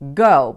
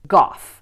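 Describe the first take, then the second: First: It is said the Dutch way, like the painter. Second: It is said the Welsh way, as a Welsh name. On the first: The speaker is an out-of-towner. The speaker calls it wrong. "Out-of-towners will tend to pronounce this the Dutch way" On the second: The speaker is a local. The speaker calls it right. "in fact, this is pronounced Gough, which is a Welsh name"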